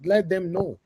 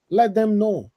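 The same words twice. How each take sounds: First: Said in the usual way. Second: "Let them know" again, higher and louder, hitting "Let"; emphatic repeat. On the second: Real, not acted. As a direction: press "Let" hard the second time.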